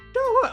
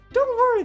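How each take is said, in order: First: It is said in Natsuki's voice. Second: It is said in Yuri's voice.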